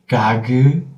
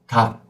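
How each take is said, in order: First: The final consonant is released with a soft geu. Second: The final k is cut off with no release. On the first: The speaker calls it wrong. "you open your throat again to make the second sound" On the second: The speaker calls it right. "we have to stop and cut"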